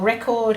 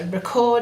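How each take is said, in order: First: The stress is on the first syllable. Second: The stress is on the second syllable. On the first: It is the noun, a thing. "record has the strong syllable first, and that's the noun" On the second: It is the verb, an action. "with the strong syllable last, is the action"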